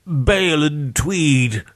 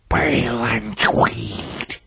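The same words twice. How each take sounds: First: Slow, high, snuffled naming; snuffling victim. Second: Slow, ghostly rasping hiss; strange hissing voice. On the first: Beaten victim naming the dead to their killer, snuffling. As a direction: snuffle the names out pitifully, slowly. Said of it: "Charles snuffled". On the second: Dead victims naming themselves to their killer, hissing. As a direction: hiss the names out slowly. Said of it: "hissing voice from Charles". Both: A narrator's reading.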